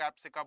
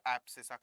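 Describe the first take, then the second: First: Abscissa said as "ab-si-ka"; variant pronunciation. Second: Said in the usual way. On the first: Retold or imitated. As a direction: put a hard K in the last syllable of abscissa. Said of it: "कई लोग abscissa बोलते हैं".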